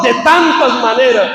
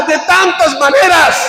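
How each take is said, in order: First: Said in the usual way. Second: "De tantas maneras" drawn out slowly at high pitch; emphatic preaching repeat. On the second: Real, not acted. Preacher answering how God speaks, "De tantas maneras" high and drawn out.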